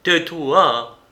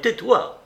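First: Loud, higher cry of pain. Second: Much higher, louder cry; desperate cry. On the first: Marin covers his ears, crying out to silence her. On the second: Marin begs Monique to stop, crying out higher. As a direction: pitch it up in despair. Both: A narrator's reading. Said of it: "s'écria Marin".

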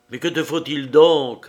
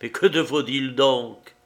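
First: The same question pushed out louder; louder repeat of the question; louder insistent repeat. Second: Said in the usual way. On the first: A narrator's reading. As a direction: press him again, louder, backing away. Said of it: "répéta-t-il en reculant". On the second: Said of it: "répéta-t-il".

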